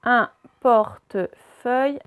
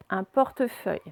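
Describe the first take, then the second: First: "Un portefeuille" slowly split, Un, porte, feuille; syllable by syllable. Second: Said in the usual way. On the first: Shown as a demonstration. Teacher reading words aloud to pupils, syllable by syllable. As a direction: sound out "Un portefeuille" in separate slow pieces. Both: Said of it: "on va faire les deux d'un coup".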